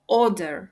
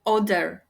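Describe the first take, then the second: First: "order" said as OR-der, first syllable strong; stress on first syllable. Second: "order" misstressed as or-DER; stress on second syllable. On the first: Teacher showing learners correct stress, OR-der on first syllable. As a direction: punch the start of "order". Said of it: "наголос падає на перший склад". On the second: Teacher showing the reverse mistake, or-DER on second syllable. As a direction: move the weight to the end of "order". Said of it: "а не навпаки". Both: Shown as a demonstration.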